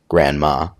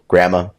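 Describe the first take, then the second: First: The word is said with a clear d sound. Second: The word is said without a d sound. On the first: It names the grandmother from California. "with the D" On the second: It names one of the two grandmothers. "no D"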